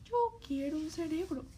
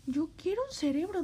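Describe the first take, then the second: First: Said in the usual way. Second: Louder, faster, pleading; louder insistent wish. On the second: Acted. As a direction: push it harder the second time. Scarecrow repeating wish louder.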